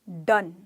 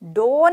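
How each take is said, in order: First: The vowel is a short 'uh' sound. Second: The vowel is an 'oh' sound. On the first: The speaker calls it right. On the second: The speaker calls it wrong.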